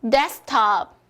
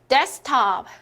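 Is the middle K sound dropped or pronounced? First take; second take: dropped; dropped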